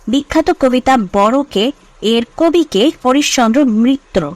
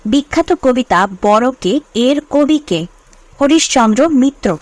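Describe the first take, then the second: Both takes have the same delivery.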